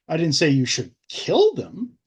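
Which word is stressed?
kill. The word 'kill' is stressed.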